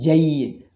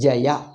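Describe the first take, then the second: First: The word has one syllable, ending in a glide. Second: The word has two syllables, ending in a vowel. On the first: The speaker calls it wrong. "this is an artificially by pronunciation defect" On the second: The speaker calls it right. "Jaya we have to say"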